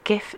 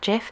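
First: It starts with a hard G sound. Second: It starts with a soft G sound. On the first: The speaker calls it right. "Hard G for me" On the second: The speaker calls it wrong. "not GIF"

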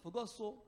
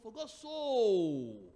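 First: The word so is said lightly, without emphasis. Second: The word so is said with strong emphasis.

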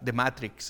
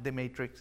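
First: It is said with a Spanish accent. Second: It is said with a British English accent. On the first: "that I will say in Spanish" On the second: "is my English accent. My British on me"

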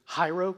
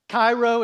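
First: The word begins without a hard k sound. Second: The word begins with a hard k sound. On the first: The speaker calls it right. "It's actually Hyro because the C is silent" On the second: The speaker calls it wrong. "We pronounce it Cairo"

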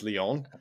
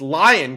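First: The name is said with a French pronunciation. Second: The name is said like the English word lion. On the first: "pronouncing it actually correctly in French where it's Lyon" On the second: "It's Lion, goddammit"

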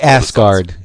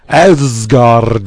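First: The R is said without a roll. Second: The R is said with a roll. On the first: The speaker calls it wrong. "can't say Asgard" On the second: The speaker calls it right. "You have to even roll the R"

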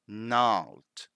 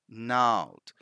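First: The initial g sound is silent. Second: The same.

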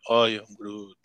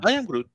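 First: It is said in a sad tone. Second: It is said in a crazy, wild tone.

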